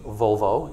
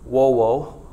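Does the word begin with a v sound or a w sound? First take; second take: v sound; w sound. First: The word begins with a v sound. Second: The word begins with a w sound. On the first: "if you use the ecclesiastical pronunciation" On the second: "if you use the classical pronunciation"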